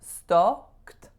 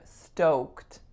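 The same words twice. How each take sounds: First: The O vowel is not rounded enough. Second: The O vowel is fully rounded. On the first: The speaker calls it wrong. "I needed to round my O vowel more" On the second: The speaker calls it right. "I'm stoked"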